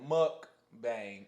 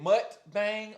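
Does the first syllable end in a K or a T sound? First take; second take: K; T. First: The first syllable ends with a K sound. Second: The first syllable ends with a T sound. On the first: "M U C K" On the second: "M U T"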